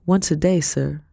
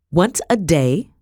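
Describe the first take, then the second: First: Said in the usual way. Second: Appalled echoing question; incredulous, raised-voice question; voice rising. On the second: A narrator's reading. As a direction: repeat it in rising disbelief. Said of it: "Madam's voice rose again".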